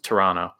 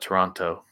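First: The second T sound is dropped. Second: The second T sound is clearly pronounced. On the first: "They won't pronounce the T, just Toronto" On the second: "So instead of Toronto"

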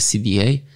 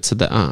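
First: The letters are read with English letter names. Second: The letters are read with Polish letter names. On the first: The speaker calls it wrong. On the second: The speaker calls it right.

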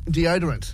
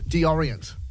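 First: The middle D sound is pronounced. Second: The middle D sound is left out. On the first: The speaker calls it right. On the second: The speaker calls it wrong.

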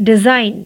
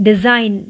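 Both takes have the same delivery.

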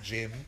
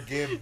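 First: The word begins with a J sound. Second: The word begins with a hard G sound. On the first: The speaker calls it wrong. "Not Jim" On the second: The speaker calls it right. "It's not a J"

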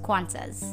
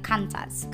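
First: It is said the standard local way. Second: It is said the common Indonesian way. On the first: The speaker calls it right. "it's supposed to be pronounced Qantas" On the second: The speaker calls it wrong. "Most of Indonesians pronounce it like Qantas"

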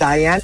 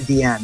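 First: The name begins with a 'die' sound. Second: The name begins with a 'dee' sound. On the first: The speaker calls it right. "actually, it's Diane" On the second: The speaker calls it wrong. "Okay, it's Deanne"

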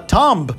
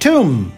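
First: A B sound is heard at the end. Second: The word ends on an M sound. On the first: The speaker calls it wrong. "não se fala tomb" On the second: The speaker calls it right. "A gente pronuncia tomb"

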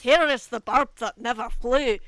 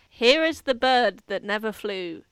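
First: It is said in a Scottish accent. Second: It is said without a Scottish accent.

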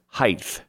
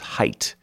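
First: The word ends with a th sound. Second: The word ends with a t sound. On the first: The speaker calls it wrong. "As if there's a TH on the end" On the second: The speaker calls it right. "it is height"

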